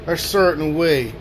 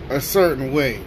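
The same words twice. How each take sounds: The two takes are said the same way.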